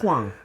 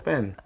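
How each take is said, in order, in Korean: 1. 이 단어는 'hw' 소리로 시작해요. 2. 이 단어는 'p' 소리로 시작해요.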